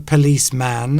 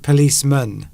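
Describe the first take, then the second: First: The final syllable is a full, drawn-out man. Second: The final syllable is a short, reduced mun. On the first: The speaker calls it wrong. "You don't say policeman" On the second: The speaker calls it right. "slightly different pronunciation uh, on the end there"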